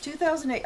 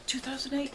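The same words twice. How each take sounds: First: "Two thousand eight," settled with a falling end; firm falling "Two thousand eight,"; confirming. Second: "Two thousand eight?" asked with a rise, softly to herself; checking the year aloud, "eight?" lifted; quiet doubting rise on "Two thousand eight?"; unsure question. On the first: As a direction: state the year as now certain, "thousand" stressed. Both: Real, not acted.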